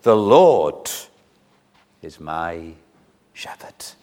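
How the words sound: The stress is on the word Lord.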